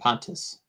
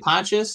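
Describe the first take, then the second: First: The name ends with a plain 'tus' sound. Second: The name ends with a 'yus' sound.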